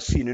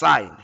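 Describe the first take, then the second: First: The vowel is short, rhyming with 'win'. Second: The vowel is long, rhyming with 'line'. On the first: The speaker calls it wrong. "don't say this is sin. Okay, this is not sin, a biblical term" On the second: The speaker calls it right. "but it's sine"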